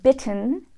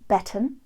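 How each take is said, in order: First: The vowel is a narrow American short i. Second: The vowel is widened toward short e.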